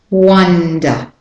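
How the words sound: The first vowel is a short open up sound. "So for Australian and British English, it's up, the short up"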